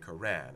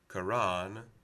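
First: The vowel is an anglicized English sound. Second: The vowel is an open 'ah' sound. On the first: It puts distance between the speaker and the other language. "we're perhaps self-consciously anglicizing the word" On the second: It approximates the original foreign pronunciation. "we will choose an ah from our phonemic inventory in order to approximate the foreign pronunciation"

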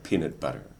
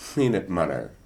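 First: The p and b are released through the lips. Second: The p and b leak air through the nose. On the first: The nasal passage is closed normally. The speaker calls it right. "instead of" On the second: The speaker cannot close off the nasal passage. The speaker calls it wrong. "somebody would say"

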